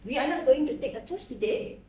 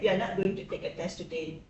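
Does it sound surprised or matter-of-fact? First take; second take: surprised; matter-of-fact. First: It sounds surprised. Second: It sounds matter-of-fact.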